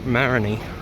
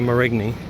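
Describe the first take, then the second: First: The G sound is silent in the name. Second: The G sound is pronounced in the name. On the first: The speaker calls it right. "The the G is kind of silent" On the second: The speaker calls it wrong. "don't don't say Marigny"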